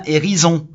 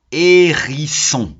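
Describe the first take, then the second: First: "hérison" with a z sound for the s; misspelling read out. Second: "hérisson" very slowly, syllable by syllable, with a clear s; sounding out. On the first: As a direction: say "hérison" as hé-ri-zon. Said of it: "si on met pas les deux S". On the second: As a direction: stretch "hérisson" as hé-ri-sson, hissed s sound. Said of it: "on entend tout". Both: Shown as a demonstration.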